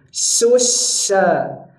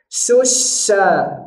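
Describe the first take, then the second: The two takes are said the same way.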